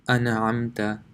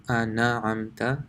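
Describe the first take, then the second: Both takes have the same delivery.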